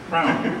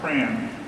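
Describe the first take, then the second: First: The vowel sounds like the one in 'cow'. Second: The vowel sounds like the one in 'can'. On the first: The speaker calls it right. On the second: The speaker calls it wrong.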